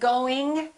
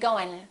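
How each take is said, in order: First: The final g sound is pronounced. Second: The final g sound is dropped. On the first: "Instead of saying going" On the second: "Sometimes the G disappears, ... people will say going"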